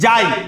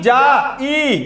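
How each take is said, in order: First: The two vowels glide together into one syllable. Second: The two vowels are split into separate syllables. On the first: The speaker calls it right. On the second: The speaker calls it wrong.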